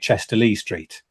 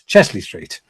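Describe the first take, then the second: First: Three separate syllables are said before 'Street'. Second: Only two syllables are said before 'Street'. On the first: The speaker is an outsider to the area. The speaker calls it wrong. "you can tell a foreigner because they say Chester Lee Street" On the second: The speaker is a local. The speaker calls it right. "anybody could tell you it's Chesley Street"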